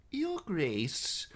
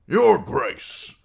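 First: Put-on much higher, thin old man's voice; calm old maester. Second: High, loud, oily flattering greeting; fawning lord. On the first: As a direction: gently address the king. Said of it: "calm as always". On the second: Acted. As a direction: grovel loudly to the king. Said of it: "Lord Janos Slynt clearing his throat".

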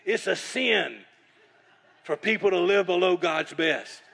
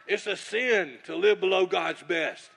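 First: Imitating Bob's booming rebuke, louder and higher; loud preaching. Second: Imitating Bob, loud and drawn out slowly; slow loud preaching. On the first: Bob shaking chicken at him, loudly preaching. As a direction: boom it out like a prophet scolding you. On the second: Bob repeating his rebuke across the table, slow and loud. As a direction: lean on each word of the rebuke. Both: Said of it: "he's talking like that".

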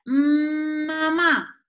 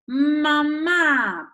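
First: "mm, mamá" with a long, held opening m and higher pitch; stretched first sound. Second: "mamá" with the last a drawn out, louder and higher; dragged final sound. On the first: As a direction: hum the m, then say "mamá". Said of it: "Notamos el sonido inicial". (alargando la m inicial de "mamá") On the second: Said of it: "Y arrastramos ese final". (arrastrando la a final de "mamá") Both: Shown as a demonstration.

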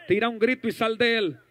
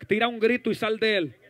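Both takes have the same delivery.

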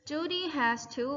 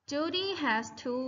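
First: Said in the usual way. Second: Slow, clear model phrase; slow model reading. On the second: Shown as a demonstration. Teacher modelling the phrase for students, slow. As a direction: say it slowly for them to copy. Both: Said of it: "repeat after me".

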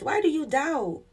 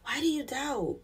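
First: Asked high and full as a direct challenge; a pointed, lifted rebuke; raised rebuke. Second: Same question dropped to a near hush; a quiet, searching echo of the rebuke; soft repeated rebuke. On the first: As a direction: put the question up high, pressing. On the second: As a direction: ask it again gently, almost under the breath. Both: Retold or imitated. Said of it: "He's like".

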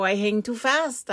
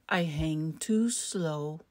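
First: Higher, brisk rabbit excuse; lively little rabbit line; hurried rabbit. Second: Very slow, drawn-out excuse; slow tortoise. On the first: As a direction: say it quickly, pitched up. Rabbit character, high and quick. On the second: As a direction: drag each word out. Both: A narrator's reading.

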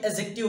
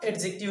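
First: "एडजेक्टिव" corrected to a-jective, no d; silent d. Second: "एडजेक्टिव" slipping in a d before the j; d sounded. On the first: Teacher correcting own slip after sorry, "एडजेक्टिव" with silent d. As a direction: leave the d out of "एडजेक्टिव". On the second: Teacher slips while explaining लंबा, "एडजेक्टिव" with d sounded. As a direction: say "एडजेक्टिव" with the d audible. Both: Real, not acted. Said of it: "sorry एडजेक्टिव हो जाएगा".

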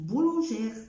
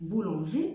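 First: Boulangère with r, louder; wrong r sounded. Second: Boulanger ending on e; silent r. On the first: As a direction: wrongly add the r. (بولانجير غلط) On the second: (boulanger من غير R) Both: Shown as a demonstration. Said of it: "ما بقولش".

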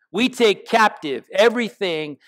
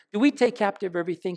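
First: We take captive everything said as a falling, settled statement; firm statement. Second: Pointed question to the church; searching question. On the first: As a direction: state it as fact with We stressed. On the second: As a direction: Do we take captive everything asked faster and softer, we stressed. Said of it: "Think about that". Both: Shown as a demonstration.

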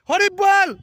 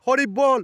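First: Devotional call. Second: Said in the usual way. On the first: Shown as a demonstration. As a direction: call out হরি বল loud and high. Devotional call after explanation.

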